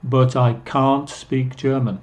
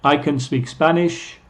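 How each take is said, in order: First: "can't" with long ah, kahnt; full, weighted kahnt for "can't"; stressed can't. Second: "can" short and unstressed, like kun; weak kun before "speak"; reduced can. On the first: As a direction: lean on "can't" with an open ah. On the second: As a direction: skim over "can". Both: Shown as a demonstration. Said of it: "Es muy diferente".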